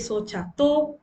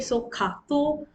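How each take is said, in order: First: The second syllable starts with a 'ch' sound. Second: The second syllable starts with a 'k' sound. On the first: The speaker says it this way. "so I say so chato" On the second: Some other people say it this way. "I know some of you say so kato"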